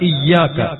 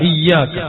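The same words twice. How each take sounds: No difference in how they are said.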